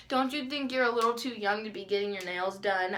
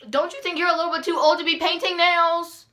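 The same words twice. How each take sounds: First: Said in the usual way. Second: High, loud, mocking retort; acted-out sassy outburst; indignant comeback. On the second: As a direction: fire the question back, raised voice, outraged. Imagined angry comeback to nail lady.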